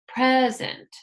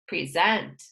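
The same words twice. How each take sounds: First: The stress is on the first syllable. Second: The stress is on the second syllable. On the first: It is used as a noun or adjective. "For rule number one" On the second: It is used as a verb. "For rule number two"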